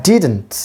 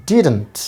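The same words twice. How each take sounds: The two takes are said the same way.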